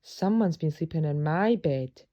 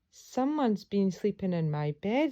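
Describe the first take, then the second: First: It is gasped in Mother Bear's voice. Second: It is said in Baby Bear's voice.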